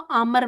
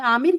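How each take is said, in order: First: The second vowel is a short a sound. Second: The second vowel is a clear i sound. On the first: "हम इसको आमर बना देते हैं" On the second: "मैं आमिर कहती थी"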